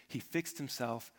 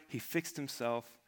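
Both takes have the same delivery.

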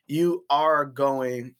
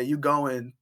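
First: "You are going" slow, every word separate; full standard form. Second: "You going" run together, no "are"; casual "You going" without the verb; dropped verb. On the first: Showing standard English grammar, "You are going" spoken slowly in full. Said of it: "instead of saying". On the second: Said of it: "we say". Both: Shown as a demonstration.

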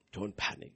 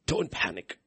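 First: Don't panic, dropped much softer; soft fading repeat. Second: Said in the usual way. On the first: Real, not acted. Preacher calming congregation, softly fading repeat. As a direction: let it fade to a hush.

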